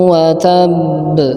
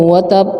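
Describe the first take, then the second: First: The final b is held and bounced. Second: The final b is stopped without bounce. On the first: The speaker calls it right. "tahan ya, tab karena baknya tasydid" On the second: The speaker calls it wrong. "Tidak ada qalqalahnya"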